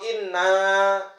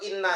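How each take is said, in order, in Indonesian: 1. Vokal akhirnya panjang. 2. Vokal akhirnya pendek. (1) "sesungguhnya kami" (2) "nggak panjang itu sesungguhnya"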